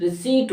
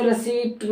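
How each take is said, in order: First: रिसीट में लंबी ई, P नहीं; मूक P. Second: रिसिप्ट में P साफ़ और छोटी इ; P बोलकर. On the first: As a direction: say रिसीट with silent P and long ee. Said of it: "रिसीट होता". (रिसीट, बिना P के लंबी ई) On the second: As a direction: say रिसिप्ट with a sounded P. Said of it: "रिसिप्ट नहीं होता". (रिसिप्ट का ग़लत रूप, P के साथ) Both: Shown as a demonstration.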